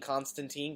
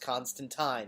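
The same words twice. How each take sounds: First: The final syllable does not rhyme with 'line'. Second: The final syllable rhymes with 'line'. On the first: The speaker calls it wrong. "calls him Constantine because it's spelled phonetically" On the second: The speaker calls it right. "It rhymes with line"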